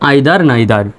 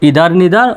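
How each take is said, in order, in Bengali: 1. প্রথম স্বরধ্বনিগুলো 'eye'-এর মতো শোনায়। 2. প্রথম স্বরধ্বনিগুলো 'ee'-এর মতো শোনায়। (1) "আরও অন্যভাবে করতে পারবেন" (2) "দুটি উচ্চারণই সঠিক"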